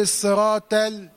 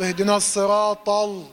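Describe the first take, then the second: First: الصراط ال with ط wrongly light like the lam; chanted wrong example, flatten the ta of الصراط ال into a light sound; thinned ta. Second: الصراط ال with ل darkened by the ط; over-heavy lam. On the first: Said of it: "الطاء مع اللام وقمت مرققها". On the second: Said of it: "قمت مفخم اللام". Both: Shown as a demonstration.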